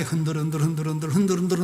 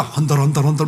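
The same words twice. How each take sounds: First: Said in the usual way. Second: "헌들헌들" repeated with eo in place of eu; imitated Busan vowels. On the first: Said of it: "애들 노래가 있는데". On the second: Children learned it from their Busan teacher, imitated "헌들헌들" with eo for eu. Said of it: "교사가 경상도 분이야".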